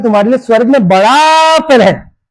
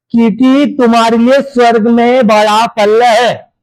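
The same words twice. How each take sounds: First: बड़ा stretched long and leaned on; stress on बड़ा. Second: Slow, measured verse reading; scripture reading. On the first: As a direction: draw out the word बड़ा for emphasis. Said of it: "परमेश्वर जिसको बड़ा बोलता है". (बड़ा शब्द पर खींचकर ज़ोर) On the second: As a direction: read the verse out word by word, unhurried. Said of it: "आगे क्या बता रहे देखो". (धीरे-धीरे वचन पढ़ते हुए) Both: A narrator's reading.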